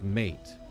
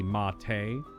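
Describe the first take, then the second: First: It is said as one syllable, rhyming with eight. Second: It is said as two syllables, ending in tay. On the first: It is the ordinary English word. "otherwise it's just mate" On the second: It names the South American tea drink. "not specifically mate"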